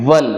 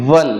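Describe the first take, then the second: No difference in how they are said.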